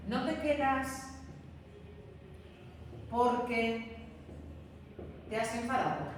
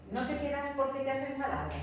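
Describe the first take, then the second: First: "¿no te quedas", pause, "porque", pause, "te has enfadado?" dragged out in pieces; teacher laying out a question chunk by chunk; slow with pauses. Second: The whole question "¿No te quedas porque te has enfadado?" said fast in one breath; teacher repeating the sentence at natural speed; quick run-through. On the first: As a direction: stretch the question apart with long pauses around porque. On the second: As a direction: rattle it off smoothly. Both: Shown as a demonstration. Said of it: "Imaginaos una secuencia como esta".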